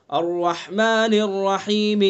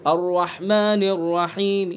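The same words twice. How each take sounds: First: Slow الرحمن الرحیم with the final zer fully sounded; full vowel demo. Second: الرحمن الرحیم with only a faint third of the final vowel; third-vowel ending. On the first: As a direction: recite الرحمن الرحیم slowly so the ending vowel is clearly heard. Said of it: "سب کو سمجھ میں آ کے زیر پڑھا ہے". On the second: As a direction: let the last vowel of الرحیم barely sound. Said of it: "تہائی حصہ ادا کریں گے". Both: Shown as a demonstration.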